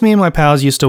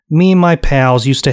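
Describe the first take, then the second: First: It is spoken in the speaker's normal accent. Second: It is spoken in a put-on foreign accent.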